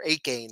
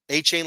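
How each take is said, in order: First: The middle consonant is a 'k' sound. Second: The middle consonant is a 'ch' sound. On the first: The speaker calls it wrong. "You want to say Ake or Akane" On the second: The speaker calls it right. "like you hear A Chain's name, it's like okay, that makes sense"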